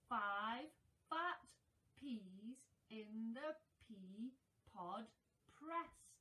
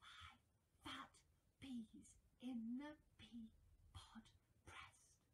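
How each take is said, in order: First: It is spoken in a normal voice. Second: It is spoken in a quiet whisper.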